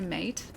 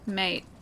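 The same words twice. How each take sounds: First: The final T is pronounced crisply and strongly. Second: The final T sounds like a very light D. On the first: The speaker calls it wrong. "I think I pronounce the T too much" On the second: The speaker calls it right. "like a D, but like a very light D"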